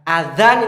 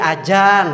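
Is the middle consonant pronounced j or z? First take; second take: z; j. First: The middle consonant is a z sound. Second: The middle consonant is a j sound. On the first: The speaker calls it right. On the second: The speaker calls it wrong.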